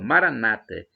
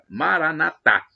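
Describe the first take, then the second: First: The stress is on the second-to-last syllable. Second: The stress is on the final syllable. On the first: This is the Evangelical and Protestant way of saying it. "os evangélicos e protestantes dizem com a tônica na penúltima sílaba" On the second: "os católicos dizem com a tônica na última sílaba"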